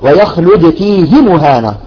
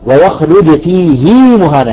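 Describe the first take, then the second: First: The final vowel of 'fihi' is short. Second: The final vowel of 'fihi' is lengthened. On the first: This follows the general rule. "نقول الأصل" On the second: This follows the transmitted reading. "هكذا وردت رواية"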